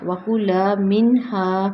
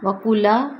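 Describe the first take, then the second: First: وکلا منہا slow with a two-beat kulaa; teacher's corrected model; correct recitation. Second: وکلا clipped with a rising end; the mistaken quick وکلا; what not to say; wrong short reading. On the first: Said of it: "کلا لمبا ہوگا". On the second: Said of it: "نہیں". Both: Shown as a demonstration.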